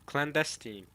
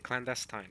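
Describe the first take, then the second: First: Clandestine ending in "-steen"; correct pronunciation. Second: Clandestine ending in "-stine", like wine; own pronunciation. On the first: Streamer showing viewers the looked-up clandestine, ending "-steen". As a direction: say clandestine as clan-DES-teen. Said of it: "hear how the correct pronunciation". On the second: Streamer showing his own clandestine, ending "-stine". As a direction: say clandestine as CLAN-des-tine, long i. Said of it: "I pronounce it clandestine". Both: Shown as a demonstration.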